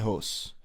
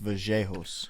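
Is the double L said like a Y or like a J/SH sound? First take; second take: Y sound; J sound. First: The double L sounds like an English Y. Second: The double L sounds like a J or SH.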